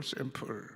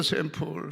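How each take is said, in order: First: 샘플 repeated much softer, almost dropped away; 샘플 said again in a hushed, fading voice; quiet echo. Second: Said in the usual way. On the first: Real, not acted. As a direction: echo 샘플 softly to let it land.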